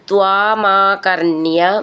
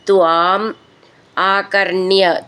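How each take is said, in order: First: The two words are run together as one. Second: The two words are said as separate units.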